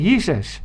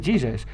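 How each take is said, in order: First: The name is said with Afrikaans pronunciation. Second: The name is said with English pronunciation. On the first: "In Afrikaans, I say Jesus" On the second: "So we are English, we just say Jesus"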